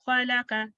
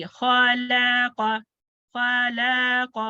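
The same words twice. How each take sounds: First: खलक़ with three quick, equal short vowels. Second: खलक़ very slow, each vowel dragged long; wrongly lengthened vowels. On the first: Teacher corrects the mistake, short-vowelled खलक़. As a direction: keep each vowel of खलक़ to half a count. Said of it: "short vowels". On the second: Teacher shows students the mistake, over-long खलक़. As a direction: stretch every vowel in खलक़ too far. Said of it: "ऐसे नहीं पढ़ेंगे". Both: Shown as a demonstration.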